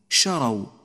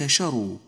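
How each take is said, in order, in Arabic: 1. الحركة بعد الراء هي 'a'. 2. الحركة بعد الراء هي 'u'. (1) "الراء مفتوحة" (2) "وليست مضمومة"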